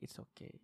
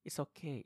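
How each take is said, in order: First: Whisper. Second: Said in the usual way. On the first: Shown as a demonstration. Comforting a listener who cries.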